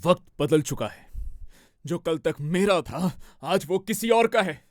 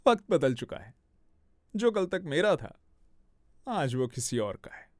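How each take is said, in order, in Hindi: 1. गुस्से वाला लग रहा है, साथ में भारी साँस की आवाज़ सुनाई दे रही है। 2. सरकास्टिक लग रहा है, मुस्कुराते हुए हल्की हंसी के साथ। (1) "इसमें भी एंगर में भी ब्रेथ का साउंड बहुत आता है" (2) "सरकास्टिक ... स्माइल तो रहेगा ... थोड़ा लाफ भी ऐड होगा"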